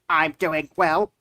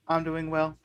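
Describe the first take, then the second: First: It is said in a natural voice. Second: It is said in a robotic voice.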